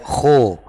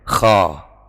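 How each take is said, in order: First: The vowel is a full, heavy o sound. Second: The vowel is a plain, light a sound. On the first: "kita baca kho, so, itu terlalu berat" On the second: "itu sudah hampir tepat, tinggal ditambahi, diberatkan sedikit"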